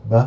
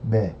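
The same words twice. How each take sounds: First: B said hard, with a plain "uh" sound; short, hard consonant on "b". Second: "be" softened, with an "eh" sound; soft, palatalised B on "be". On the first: Learner repeating the contrast, hard B. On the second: Learner repeating the contrast, soft B. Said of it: "and soft". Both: Shown as a demonstration.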